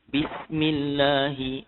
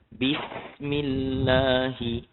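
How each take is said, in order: First: It is recited a little faster, moderately paced. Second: It is recited slowly, with long letter durations. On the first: "Kalau kita baca laju sikit" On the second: "kalau kita baca perlahan"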